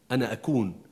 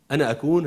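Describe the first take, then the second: First: Said in the usual way. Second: أكون louder, with a rising tune; stress on أكون. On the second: Shown as a demonstration. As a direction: lift أكون upward and hold it open.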